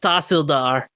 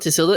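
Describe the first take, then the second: First: The word ends in a 'dar' sound. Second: The word ends in an open 'da' sound. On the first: The speaker calls it right. "it's Tahsildar. That's the pronunciation" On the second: The speaker calls it wrong. "it's not Tisilda"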